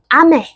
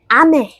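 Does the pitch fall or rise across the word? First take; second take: falls; falls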